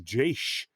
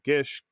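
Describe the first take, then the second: First: The word begins with a soft G sound. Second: The word begins with a hard G sound. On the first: "A soft G?" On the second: "I've heard people say everything like Gish"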